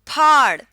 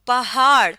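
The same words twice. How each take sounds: First: फाड़ said as one aspirated phaar, a touch louder. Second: पहाड़ with pe and he sounded apart, pa-haar; पहाड़ with separate h. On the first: Teacher contrasting spellings, फाड़ with aspirated ph. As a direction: breathe the ph in फाड़. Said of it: "ये बन जाएगा". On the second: Teaching Urdu letters, पहाड़ said with the h kept separate. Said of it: "पे अलग बोला, हे अलग बोला". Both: Shown as a demonstration.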